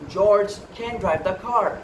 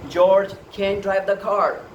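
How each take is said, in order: First: It is said with an American accent. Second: It is said with an American accent.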